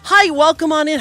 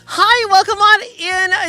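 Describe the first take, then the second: First: It is said in a bright, businesslike service voice. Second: It is said in a cooing, baby-talk voice. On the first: "my customer service voice" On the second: "The boomer baby talk voice"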